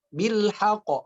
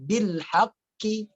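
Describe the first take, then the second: First: The final q is cut off quickly without holding. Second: The word ends with an added i vowel. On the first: "Atau bil haqq, bil haqq, tidak" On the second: "jangan dibaca bil haqqi, tidak"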